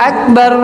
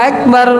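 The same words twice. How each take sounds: No difference in how they are said.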